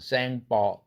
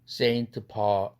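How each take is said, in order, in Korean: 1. 프랑스식으로 발음해요. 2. 영어식으로 발음해요. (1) "불어로 발음하면" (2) "영어에서 발음해서는 Saint Paul 이렇게 발음하죠"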